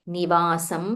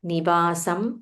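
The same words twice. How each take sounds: Both takes have the same delivery.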